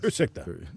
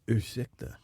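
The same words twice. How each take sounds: First: It is said in a plain, neutral voice. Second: It is said in a sultry, seductive voice. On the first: The speaker calls it right. "No radio voice. Just uh keep it Swedish" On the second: The speaker calls it wrong. "don't say it sexy like that"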